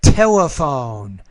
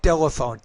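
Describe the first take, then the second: First: The T sound is pronounced clearly and standardly. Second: The T sound is pronounced in an off way. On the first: This is the model way to say it. The speaker calls it right. "But telephone" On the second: This imitates how the learner said it. The speaker calls it wrong. "You're more like telephone"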